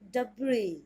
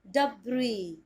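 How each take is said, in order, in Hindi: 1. अंतिम 's' ध्वनि मौन होती है। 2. अंतिम 's' ध्वनि मौन होती है।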